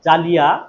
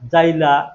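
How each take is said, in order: First: The word is said in its full written form. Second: The word is said in a reduced colloquial form. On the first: This is the written form not used in speech. "মুখে উচ্চারণ করার সময় আমরা বলি না" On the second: This is how people actually say it. "এরকম বলি"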